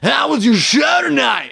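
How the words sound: The voice is harsh and grating. The speaker calls it wrong. "a nine with a really annoying voice"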